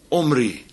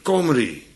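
First: The name begins directly with a vowel. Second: The name begins with a hard K sound. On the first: The throat sound has disappeared. "En dan verdwijnt hij helemaal" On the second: The throat sound has hardened. "Dan wordt hij namelijk hard"

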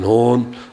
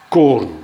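First: The word begins with a soft h sound. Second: The word begins with a hard k sound. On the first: "Dus dan wordt het gewoon een H" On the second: "dan wordt het gewoon een K"

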